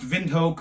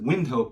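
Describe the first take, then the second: First: The name is said with a German-style pronunciation. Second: The name is said with an American-style pronunciation. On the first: "It's pronounced Windhoek" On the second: "Most Americans pronounce it Windhoek"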